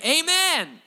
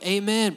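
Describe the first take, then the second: First: It is said with strong emphasis. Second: It is said with weary relief.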